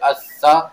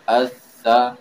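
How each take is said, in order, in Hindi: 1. दोहरे व्यंजन को सख़्ती और ज़ोर से दबाया जाता है। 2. दोहरे व्यंजन को नरमी और कोमलता से रोका जाता है। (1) "अगर हम शद का माना हमारे ज़हन में सख्ती के हो और हम इसको पढ़े" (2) "इसको हम बड़े ही नरमी के साथ और अ, ठहराव और मजबूती के साथ पढ़ेंगे, सख्ती के साथ नहीं पढ़ेंगे"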